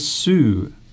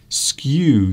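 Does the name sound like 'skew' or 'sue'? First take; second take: sue; skew. First: The name is said like 'sue', without a k. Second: The name is said like 'skew', with a k. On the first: The speaker calls it right. "Apparently it is Parc des Sous" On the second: The speaker calls it wrong. "I thought skew"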